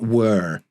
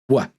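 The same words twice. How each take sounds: First: The vowel in the word is long. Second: The vowel in the word is short. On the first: "not were" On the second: "it's a short were"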